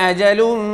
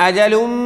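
Both takes have the same delivery.

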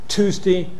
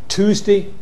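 Both takes have the same delivery.

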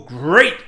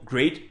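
First: It is said with Tony the Tiger's booming enthusiasm. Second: It is said plainly, without enthusiasm.

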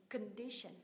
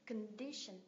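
The two takes are said the same way.

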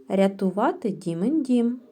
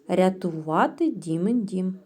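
No difference in how they are said.

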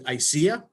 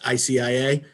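First: It is said in a way that sounds like ICU. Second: Each letter is said separately. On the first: "she pronounces it I C I A, which I kind of like because it reminds me of I C U" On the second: "I've pronounced the acronym just I C I A"

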